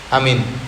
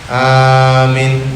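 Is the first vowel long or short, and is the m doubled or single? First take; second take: short, single; long, single. First: Short first vowel, single m, no long i. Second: Long first vowel, single m, no long i. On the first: This invalidates the prayer. "hamzah dibaca pendek, mim tidak ditasydid, mimnya biasa, kemudian huruf ya dihilangkan" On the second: This is an error but the prayer remains valid. "hamzah dipanjangkan, mim tidak ditasydid tapi huruf ya-nya hilang"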